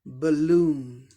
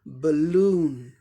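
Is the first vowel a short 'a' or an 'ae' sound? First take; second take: short a; short a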